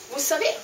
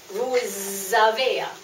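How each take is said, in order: First: The words are linked with a voiceless s sound. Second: The words are linked with a voiced z sound. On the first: You know. "utan tonande s" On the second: You have. "Ni binder ihop"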